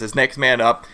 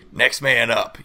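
First: Said in the usual way. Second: Gravelly coach voice. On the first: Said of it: "the grovelly voice you did". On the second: Retold or imitated. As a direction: growl it like a gruff old coach. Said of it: "I like the grovelly voice you did for next man up".

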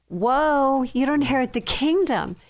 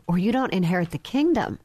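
First: Higher, emphatic repeat in amazement; taken aback. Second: Said in the usual way. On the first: Shown as a demonstration. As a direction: repeat it higher, struck by its weight.

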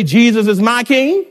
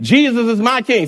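First: Said in the usual way. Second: Said like you mean it. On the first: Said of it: "Can you say". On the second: Shown as a demonstration. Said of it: "say it like you mean it".

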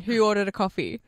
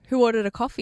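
First: Flat, dry imitation of the receptionist; mock deadpan question. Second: Slightly raised, still polite call; imitating a polite receptionist calling out; voice raised a little. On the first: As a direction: ask it with no expression at all. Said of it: "Just deadpan". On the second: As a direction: lift it a notch for the room. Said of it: "she raises her voice a little bit more".

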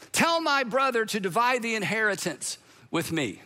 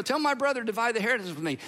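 First: Measured, mildly projected demand; mock call from crowd. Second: Quick, run-together retelling; offhand rushed request. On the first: Man in crowd asking Jesus to intervene, mild call-out. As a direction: lightly declaim it as a call from the crowd. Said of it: "Someone in the crowd shouts out". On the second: Retold or imitated. Man hoping this teacher can help, rattled-off request.

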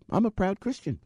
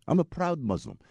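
First: Said in the usual way. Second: Mock Pakistani accent; bad Muslim accent. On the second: Driver declaring his faith, in a mock Pakistani accent. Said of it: "That's my really bad Muslim accent".

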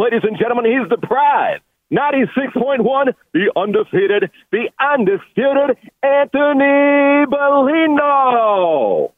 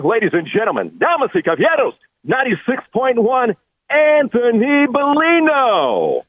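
First: Booming boxing announcer, name stretched out; lucha libre announcer. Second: Lucha libre announcer. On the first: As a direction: hype him like a title fight. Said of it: "Michael Buffer on the other side". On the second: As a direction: announce him like a title fight. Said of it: "man, I love that". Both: Acted.

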